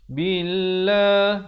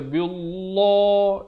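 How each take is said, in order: First: The L sound is light and thin. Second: The L sound is heavy and thick. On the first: The speaker calls it right. "Jadi dibaca nipis" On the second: The speaker calls it wrong. "jangan baca billah, itu salah ya"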